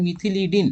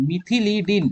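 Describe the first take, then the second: First: মিথিলিডিন said syllable by syllable, mi-thi-li-din; teacher models how মিথিলিডিন sounds; careful pronunciation. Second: Said in the usual way. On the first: Shown as a demonstration. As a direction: spell out মিথিলিডিন clearly in the voice. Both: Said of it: "উচ্চারণটা এটা হবে".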